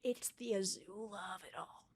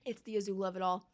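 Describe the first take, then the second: First: Much softer, low muttered line; quiet bitter grumble; muttered aside. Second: Said in the usual way. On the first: Real, not acted. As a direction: say it under your breath in disgust. Muttered then repeated.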